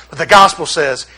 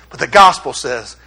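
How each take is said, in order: Both takes have the same delivery.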